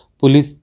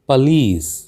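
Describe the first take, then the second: First: The stress is on the first syllable. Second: The stress is on the last syllable. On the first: The speaker calls it wrong. "हम हम इसको police या polish कह देते हैं" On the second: The speaker calls it right. "अंतिम जो शब्द है लीस, इस पर आपको जोर देना चाहिए"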